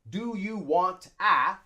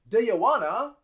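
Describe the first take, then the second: First: Want and a are said as separate words. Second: Want and a blend into wanna. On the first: The speaker calls it wrong. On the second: The speaker calls it right.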